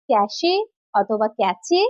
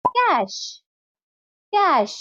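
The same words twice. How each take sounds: First: "ক্যাশে" and "ক্যাচে" with a sounded final E; wrong pronunciation. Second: "ক্যাশ" as one syllable, like cash; correct pronunciation. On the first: Teacher offering learners' wrong guesses, "ক্যাশে" and "ক্যাচে" in two syllables. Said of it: "ভুল". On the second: Teacher modelling for learners, "ক্যাশ" pronounced like cash. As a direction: end "ক্যাশ" on sh, silent E. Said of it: "সঠিক উচ্চারণ হবে". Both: Shown as a demonstration.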